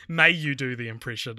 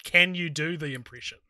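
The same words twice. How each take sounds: First: "May" set out as the key word; stress on may. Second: "Can" set out as the key word; stress on can. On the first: Offering the alternative wording, stress on may. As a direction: lean on "May" at the start. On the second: Arguing over the question's wording, stress on can. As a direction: lean on "can" at the start. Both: Shown as a demonstration.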